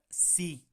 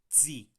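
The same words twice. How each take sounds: First: The syllable starts with a plain s sound. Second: The syllable starts with a ts sound. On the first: The speaker calls it wrong. "Es muy fácil irnos a, a pronunciar sí" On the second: The speaker calls it right. "cuando realmente es sí. Se mete una T antes de esa S"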